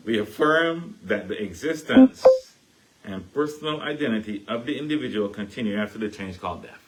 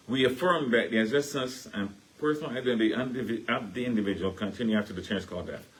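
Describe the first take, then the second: First: Slow, carefully spaced recital of the creed; slow down and say each word clearly. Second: Recited creed in a Caribbean accent. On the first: Re-reading the creed for listeners, slow and clear. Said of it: "Let me go really slow". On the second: Reciting the church creed in a Caribbean accent. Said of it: "That's my Caribbean voice coming in". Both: Shown as a demonstration.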